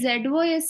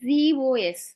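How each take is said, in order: First: The first letter is said as 'zed'. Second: The first letter is said as 'zee'. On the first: The speaker calls it wrong. "అని pronounce చేయకూడదు" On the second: The speaker calls it right. "జెడ్ఈఈ జీఓఎస్"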